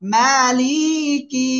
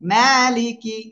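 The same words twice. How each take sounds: First: The middle vowel is drawn out long. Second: The middle vowel is said short and quick. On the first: The speaker calls it wrong. "এরকম পড়লে ভুল।" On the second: The speaker calls it right. "এখানে কিন্তু টান নাই কোনো। হরকতের উচ্চারণ তাড়াতাড়ি পড়তে হবে।"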